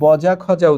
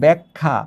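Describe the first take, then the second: First: A clear j sound follows each consonant. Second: An e-like vowel follows the first consonant. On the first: This is how the spelling would suggest reading it. "তাহলে এখানে বজা খজা উচ্চারিত হওয়া উচিত" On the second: This is how people actually say it. "কিন্তু আমরা উচ্চারণ করছি ব্যাখ্যা"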